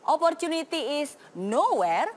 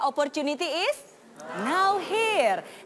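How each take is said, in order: First: The last part is said as one word. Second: The last part is split into two words. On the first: There is no opportunity. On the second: Opportunity exists right now.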